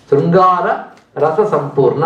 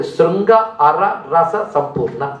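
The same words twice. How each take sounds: First: Said in the usual way. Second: Sringa and అర said as two separate words, slowly; word split into parts. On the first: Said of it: "అంతేకాదు, శృంగ అర రస సంపూర్ణ". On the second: Shown as a demonstration. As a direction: break Sringa అర రస సంపూర్ణ word by word. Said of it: "శృంగములు అంటే కొమ్ములు".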